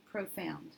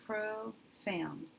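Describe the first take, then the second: First: Said in the usual way. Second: Profound drawn out slowly, syllable by syllable; slow sounding out. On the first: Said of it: "that is a word I've heard". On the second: Shown as a demonstration. Teacher sounding out the word for students, slowly. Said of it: "When I divide there".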